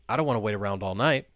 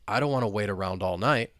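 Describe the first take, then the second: First: The sentence is spoken fast. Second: The sentence is spoken at a moderate speed. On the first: "And now let's say it faster" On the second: "Now let's speed it up a little bit"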